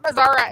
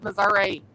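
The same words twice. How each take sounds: First: The word ends with an 'uh' sound. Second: The word ends with an 'ee' sound. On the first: The speaker calls it wrong. "it ain't Missouri" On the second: The speaker calls it right. "it's Missouri"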